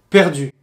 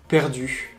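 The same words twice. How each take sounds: First: The final vowel ends firmly without escaping breath. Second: The final vowel ends with audible escaping breath. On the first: The speaker calls it right. "ça a beaucoup plus d'impact si on dit perdu" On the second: The speaker calls it wrong. "j'avais des fuites d'air au niveau de certaines voyelles"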